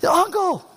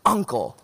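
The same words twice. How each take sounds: First: High-pitched pretend plea; mock cry for mercy. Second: Said in the usual way. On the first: Child pinned in rough play begging to quit, mock cry for mercy. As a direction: cry uncle in a much higher voice. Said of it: "like a cry for mercy". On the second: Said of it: "you cry".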